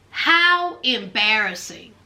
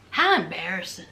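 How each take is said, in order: First: Said in the usual way. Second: Deep, dry mock embarrassment; low mock pity. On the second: Recapping reality TV, low mock-pitying aside.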